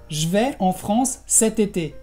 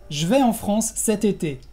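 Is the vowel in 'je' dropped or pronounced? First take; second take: dropped; dropped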